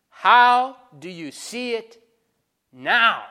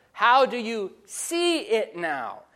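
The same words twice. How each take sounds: First: "now" set apart, louder and alone after a pause; stress on now. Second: "see" weighted, slow and even, "now" left light; stress on see. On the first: Preacher pressing the congregation with a heavy "now". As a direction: hold back, then land hard on "now". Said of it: "Notice the emphasis on the word now". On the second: Preacher rereading the question, now stressing "see". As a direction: dwell on "see" and let "now" fall away. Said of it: "Listen to the visual terms he uses". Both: Shown as a demonstration.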